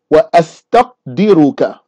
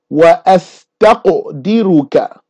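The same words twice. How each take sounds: First: The q has no echoing bounce after it. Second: The q has an echoing bounce after it. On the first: "If you don't say the qalqalah, it's still valid" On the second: "there's a vibrating sound or a sort of commotion or a noise that goes along with it that's called qalqalah"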